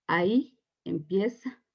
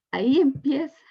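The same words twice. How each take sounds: First: Said in the usual way. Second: "Ahí empieza" repeated higher and louder, punching "Ahí"; "Ahí" hit hard and high as a testimony climax; emphatic repeat. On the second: Real, not acted. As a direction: lift "Ahí empieza" up and out like a proclamation.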